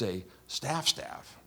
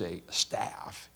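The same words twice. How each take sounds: First: The word staff is said with strong emphasis. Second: The word staff is said plainly, without emphasis. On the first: It is a special, important staff. "Isn't it funny when we say the words like that" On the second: It is an ordinary staff. "It isn't just a staff"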